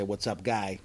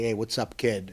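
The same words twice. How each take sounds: First: Put-on lightly done Charlestown Boston accent, casual; a mild Charlestown Boston accent, offhand; Charlestown Boston greeting. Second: Put-on lightly done North End Boston accent, casual; a mild North End Boston accent, easy and friendly; North End Boston greeting. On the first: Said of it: "In Charlestown, say". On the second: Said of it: "like in the North End when you would say".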